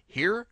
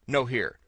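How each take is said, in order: First: High, sharp rising "Here?"; "Here?" thrown up high as a puzzled question; searching question. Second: Said in the usual way. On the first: Pretend. Searching for the noise, a high questioning "Here?". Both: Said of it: "Where is that annoying drivel coming from?".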